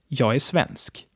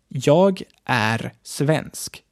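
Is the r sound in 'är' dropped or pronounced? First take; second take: dropped; pronounced. First: The word är is reduced to a bare vowel. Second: The word är is said in full with r. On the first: The speaker calls it right. "Är is mostly pronounced like e or ä" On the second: The speaker calls it wrong. "Not jag är svensk"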